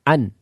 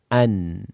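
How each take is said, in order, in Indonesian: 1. Suara akhir berhenti tiba-tiba. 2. Suara akhir berlanjut sebentar. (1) "Tidak boleh mengucapkannya dengan an" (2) "Ada suara"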